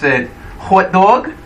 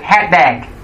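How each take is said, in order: First: The vowels sound like standard 'hot dog'. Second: The vowels are shifted, sounding like 'hat bag'. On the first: The speaker is from one region. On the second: The speaker is from another region.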